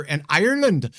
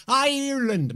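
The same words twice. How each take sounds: First: Said in the usual way. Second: Ireland said in a bad, hammed-up Irish accent, pitched higher; a quick, deliberately bad Irish lilt on Ireland. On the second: Weatherman greeting Irish viewers in a mock Irish accent. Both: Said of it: "My bad Irish accent".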